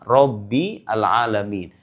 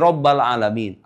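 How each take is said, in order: First: The word Rabb ends with an i vowel. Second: The word Rabb ends with an a vowel. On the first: The speaker calls it right. "Kenapa dibaca Rabbi?" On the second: The speaker calls it wrong. "Tapi menurut kaidah ilmu nahu itu salah"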